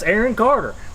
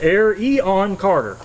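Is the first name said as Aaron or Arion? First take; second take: Aaron; Arion. First: The first name sounds like Aaron. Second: The first name sounds like Arion. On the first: The speaker calls it wrong. "that's not how you say his name" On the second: The speaker calls it right. "It's Arion Carter"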